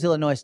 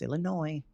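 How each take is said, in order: First: The word ends with an audible S sound. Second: The word ends without any S sound. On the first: The speaker calls it wrong. "I always thought it was Illinois" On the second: The speaker calls it right. "we don't say the S"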